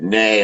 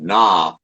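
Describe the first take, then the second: First: The vowel sounds like 'ay' in 'day'. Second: The vowel sounds like 'ah' in 'father'. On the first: The speaker calls it right. "which you pronounce it Nay" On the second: The speaker calls it wrong. "instead of Na"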